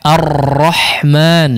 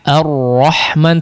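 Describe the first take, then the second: First: The r is trilled heavily with many vibrations. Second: The r is trilled lightly and softly. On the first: The speaker calls it wrong. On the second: The speaker calls it right.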